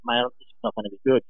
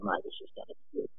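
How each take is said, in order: First: Said in the usual way. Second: Whispered aside, much softer; a quick, breathless whispered aside. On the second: Retold or imitated. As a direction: hush it to yourself, like a secret. Aside before facing Richie Collins.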